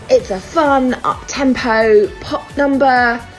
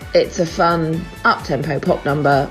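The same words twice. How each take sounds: First: It is said with genuine, upbeat enthusiasm. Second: It is said with a dry, sarcastic tone. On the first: The song is praised as enjoyable. "on the one hand" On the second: The song is dismissed as bland and unremarkable. "on the other hand"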